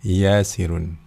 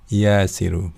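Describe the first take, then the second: First: The name ends with an added n sound. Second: The name ends on a plain vowel. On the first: The speaker calls it wrong. "bukan ya sirun" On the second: The speaker calls it right.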